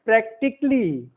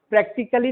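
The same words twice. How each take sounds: First: "प्रैक्टिकली" as prak-tik-lee; silent A. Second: "प्रैक्टिकली" as prak-ti-ka-lee; wrong pronunciation. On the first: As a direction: drop the a before "ly" in "प्रैक्टिकली". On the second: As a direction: sound the a in "प्रैक्टिकली". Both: Shown as a demonstration. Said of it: "प्रैक्टिकली नहीं".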